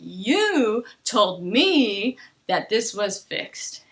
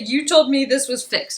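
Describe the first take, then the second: First: It is slow, with wide, stressed intonation. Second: It is quick, with flat, narrow intonation. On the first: The speaker calls it right. "I'm going to use that intonation" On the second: The speaker calls it wrong. "I'm not going to say"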